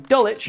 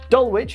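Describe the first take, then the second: First: The ending is said like 'wick'. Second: The ending is said as spelled, like 'wich'.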